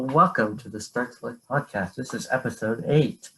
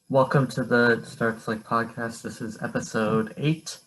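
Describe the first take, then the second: First: It is said with more enthusiasm and energy. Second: It is said flatly, without enthusiasm.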